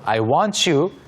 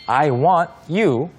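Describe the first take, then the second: First: The words run together with linked sounds. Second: The words are said separately without linking.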